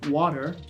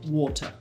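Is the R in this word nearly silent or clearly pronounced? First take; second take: clearly pronounced; nearly silent. First: The R is pronounced toward the back of the mouth. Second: The R sound is barely pronounced at all. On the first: "Or in the American, it's pronounced just slightly towards the back of the mouth" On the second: "in the British pronunciation, I barely pronounce it"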